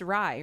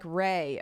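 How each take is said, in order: First: The name does not rhyme with 'ray'. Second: The name rhymes with 'ray'. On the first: The speaker calls it wrong. "Is that how you pronounce it?" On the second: The speaker calls it right. "Pronounced like, oh, pr- like Ray"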